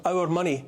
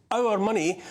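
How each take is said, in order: First: Said in the usual way. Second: OUR MONEY repeated a little higher for emphasis; emphatic repeat. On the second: Real, not acted. Commentator on the powerful spending public funds, "our money" repeated with emphasis. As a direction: press indignantly on "our money".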